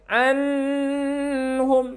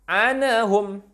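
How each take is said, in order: First: The n flows smoothly into the next sound. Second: The n bounces with an added vowel after it. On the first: "tidak mengalir, tidak boleh" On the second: "tidak memantul, tak boleh"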